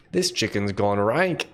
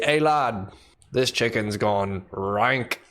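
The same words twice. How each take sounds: First: Put-on slow British accent repeated for chat; mock British accent, drawn out. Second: Mock British accent, slow and deliberate. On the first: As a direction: show off the British accent again, slowly. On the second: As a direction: play a British bloke returning bad chicken. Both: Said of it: "how was my British accent?".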